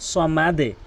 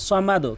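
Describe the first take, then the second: First: The final consonant's echo goes downward, like 'e'. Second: The final consonant's echo goes upward, like 'o'. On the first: The speaker calls it right. "কিন্তু কি বলতে হবে সমাদে" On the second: The speaker calls it wrong. "অধিকাংশ লোক কি বলে সমাদো"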